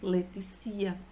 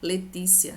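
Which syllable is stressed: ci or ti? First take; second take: ci; ti. First: The stress falls on the syllable ci. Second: The stress falls on the syllable ti. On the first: The speaker calls it wrong. "Se a palavra Letícia não tivesse o acento, você iria ler Leticia. E está equivocado" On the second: The speaker calls it right. "assim como é o nome Letícia"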